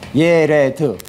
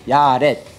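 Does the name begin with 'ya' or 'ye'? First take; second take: ye; ya. First: The name begins with 'ye' and ends in 'd'. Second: The name begins with 'ya' and ends in 't'. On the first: This is the original pronunciation. "원래 발음하기는 예, 레, 드입니다" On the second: This is the usual local pronunciation. "우리는 근데 야렛이라고 하잖아요"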